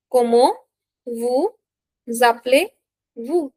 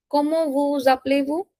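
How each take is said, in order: First: "Comment vous appelez-vous" in separate rising pieces; slow teaching breakdown of "Comment vous appelez-vous"; word by word. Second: Said in the usual way. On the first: Shown as a demonstration. Teacher dictates phrase in pieces.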